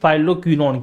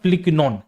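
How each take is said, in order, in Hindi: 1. पहला अक्षर 'eye' ध्वनि के साथ बोला जाता है। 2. पहला अक्षर छोटे 'i' के साथ बोला जाता है। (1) "इसको साथियों बोलते हैं यहाँ पे फाइलोक्विनोन" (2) "इसका जो सही प्रोनाउंसिएशन जाता है बेटा होता है फिलिक्विनोन"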